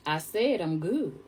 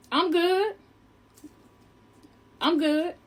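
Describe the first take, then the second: First: Slow, softer, deliberate refusal; firm refusal. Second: High, lifted refusal with long gaps; polite refusal. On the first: Woman throwing the coat off, slow firm refusal. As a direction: say it slowly and quietly, as a final word. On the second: Woman declining the man's hot coat, high polite refusal. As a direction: turn it down in a high, careful voice. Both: Retold or imitated.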